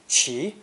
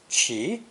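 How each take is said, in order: First: The syllable is said with a rising tone. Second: The same.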